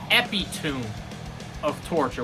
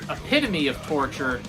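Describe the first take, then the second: First: Epitome is squeezed into fewer syllables. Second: Epitome is said with all its usual syllables.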